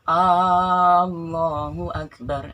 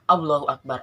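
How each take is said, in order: First: The opening A vowel is drawn out long. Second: The opening A vowel is short. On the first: It asks whether God is the greatest. The speaker calls it wrong. "akan salah ketika kita baca alifnya itu panjang" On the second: God is the greatest. The speaker calls it right. "lafaz alifnya itu pendek"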